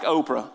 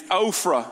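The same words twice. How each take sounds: First: Oprah said with a P sound, like the TV name; misread name. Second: Ophrah said OH-fruh, with an F sound; careful name pronunciation. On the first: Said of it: "it looks like Oprah". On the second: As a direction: say Ophrah with a long O and F. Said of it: "so I can say it's like". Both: Shown as a demonstration.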